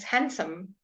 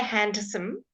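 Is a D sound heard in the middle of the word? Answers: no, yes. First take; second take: no; yes. First: The D sound in the middle is left out. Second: The D sound in the middle is pronounced. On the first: The speaker calls it right. "It's handsome. No D" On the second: The speaker calls it wrong. "Don't say handsome"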